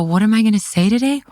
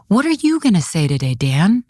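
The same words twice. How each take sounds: First: "I" echoed back in a higher, rising question; question thrown back. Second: "you" stressed, falling away to the name; question turned around. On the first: Commissioner answering Dan's challenge, incredulous echo on "I". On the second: Commissioner challenging Dan back, pointed stress on "you". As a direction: turn it on him by leaning on "you". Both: Retold or imitated.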